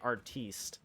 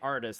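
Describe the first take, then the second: First: The word is said with a fancy French ending. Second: The word is said with a plain English ending. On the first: "they say artiste" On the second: "They don't say artist"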